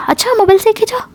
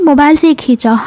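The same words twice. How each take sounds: First: High, quick disbelieving question; sceptical challenge. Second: Plain insistent statement, falling at the end; insistent denial. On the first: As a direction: throw the excuse back as a doubting question. Friend challenges the excuse just given. (शक भरे ऊँचे सुर में, तेज़ी से पूछते हुए) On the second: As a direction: state the excuse as settled fact. Cornered friend insists on her excuse. (ज़ोर देकर सफ़ाई देते हुए) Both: Retold or imitated.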